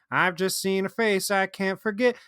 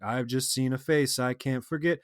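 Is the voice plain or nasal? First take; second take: nasal; plain. First: It is said with a nasal twang. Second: It is said in a plain, normal voice.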